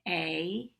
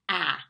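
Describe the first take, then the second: First: The vowel is said as its letter name. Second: The vowel is said as a short sound. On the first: "this is when we say the name of the vowel" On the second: "the sound is ah"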